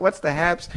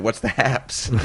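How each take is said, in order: First: Higher, mocking replay of the silly question; mocking own question. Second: Retold with a laugh breaking through; chuckling as you ask it; laughing question. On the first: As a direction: echo it as if it sounds ridiculous. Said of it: "It's like, you know, like". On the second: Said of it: "And I looked at Brock and said".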